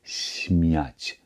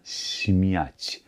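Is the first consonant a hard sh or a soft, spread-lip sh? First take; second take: soft sh; soft sh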